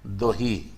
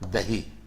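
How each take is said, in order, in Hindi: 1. पहला स्वर छोटा, गोलाकार पिछला 'o' है। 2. पहला स्वर सादा, बिना गोलाई वाला 'a' है। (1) "जैसे बोलते हैं हम लोग वहाँ है दोही" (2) "हम लोग बोलते हैं दही"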